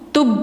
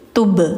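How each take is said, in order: First: The final b is cut off without bounce. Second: The final b is released with a bounce. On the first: The speaker calls it wrong. "jangan tub" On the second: The speaker calls it right. "tapi tub, tub gitu"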